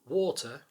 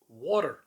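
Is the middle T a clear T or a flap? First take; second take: clear T; flap. First: The middle T is a clear T. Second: The middle T is a quick flap.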